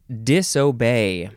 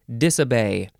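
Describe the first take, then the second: First: The middle vowel is a full 'oh' sound. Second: The middle vowel is a reduced 'uh' sound.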